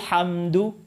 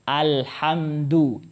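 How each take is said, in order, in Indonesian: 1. Bunyi a di awal sama sekali tidak dibaca. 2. Bunyi a di awal jelas dibaca. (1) "a-nya hilang kan, nggak terbaca" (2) "al itu dibaca kalau dimulai dengan di situ kalau dia sebagai permulaan"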